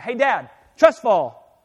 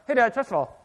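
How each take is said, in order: First: The words are spoken clearly and distinctly. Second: The words are mumbled and hard to make out. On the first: "it used to be she'd walk in and say" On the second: "sometimes she kind of mumbles a little bit"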